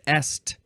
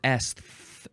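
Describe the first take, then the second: First: The word ends in a plain t sound. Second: The word ends in a th sound.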